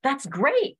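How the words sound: It sounds happy and excited.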